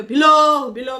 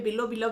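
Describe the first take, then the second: First: below, below blared out high and loud, drawn down then up; mocking loud call. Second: Affectionate pet name. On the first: Mocking the husband calling his wife below below on camera, loud high call. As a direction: belt below below out in ridicule. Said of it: "करके बोल रहा है". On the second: Retold or imitated. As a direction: say बिल्लो, बिल्लो fondly, like a husband at home. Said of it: "प्यार से बोलते हैं".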